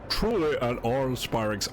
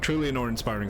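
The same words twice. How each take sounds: First: It is said in a put-on character voice. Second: It is said in the speaker's normal voice.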